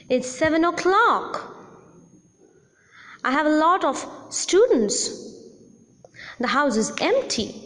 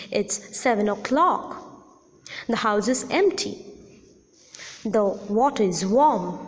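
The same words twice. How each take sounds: First: Incomplete statements said with a rise; rising tone. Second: Statements said with a falling tone. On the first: Teacher showing rising incomplete utterances. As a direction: leave "empty" hanging on a rise. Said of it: "Rising tone is used in incomplete utterances". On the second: Teacher demonstrating falling statements. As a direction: let each sentence fall at its end. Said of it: "The first is the falling tone". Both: Shown as a demonstration.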